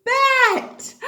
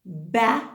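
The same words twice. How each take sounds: First: Excited. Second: Said in the usual way. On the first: Shown as a demonstration. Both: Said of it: "Are you ready?".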